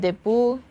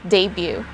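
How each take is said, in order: First: It is pronounced the Tagalog way. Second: It is pronounced the English way. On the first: The speaker calls it wrong. "in Tagalog we say debut" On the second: The speaker calls it right. "but in English we say debut"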